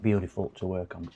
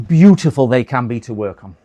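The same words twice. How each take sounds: First: Beautiful said low and much softer, dry; sarcastic mutter. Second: BEAUTIFUL hit loud in mock praise; sarcastic praise. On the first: Acted. Repairer grumbling to himself about the laptop, quiet sarcasm. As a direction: drop it to a quiet ironic aside. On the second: Repairer mocking the awkward Panasonic laptops, loud sarcasm. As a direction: lean hard on beautiful, ironic.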